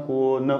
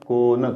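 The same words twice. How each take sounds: Both takes have the same delivery.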